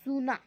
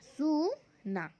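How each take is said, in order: First: Said in the usual way. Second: Slowly drawn out. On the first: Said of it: "सही कौन सा है". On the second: Shown as a demonstration. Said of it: "अब हम आगे देखेंगे".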